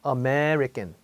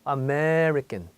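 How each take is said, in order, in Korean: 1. 강세가 있는 음절을 눈에 띄게 길게 발음해요. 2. 강세가 있는 음절을 눈에 띄게 길게 발음해요.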